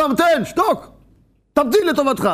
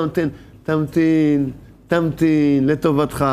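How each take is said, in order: First: Scolding someone who keeps nagging; harsh yell. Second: A slow, tender plea to be patient; gentle pleading. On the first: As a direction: bark the order at him from above. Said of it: "צועקים עליו". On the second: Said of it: "מתחננים אליו". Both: Retold or imitated.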